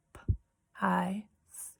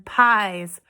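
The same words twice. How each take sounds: First: P-I-S as whispered "p", "eye", "sss", with pauses; sounded out. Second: Said in the usual way. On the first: Shown as a demonstration. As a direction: tap out P-I-S in three separate, softer sounds. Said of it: "we're gonna tap out the sounds". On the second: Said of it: "I'm gonna say a word".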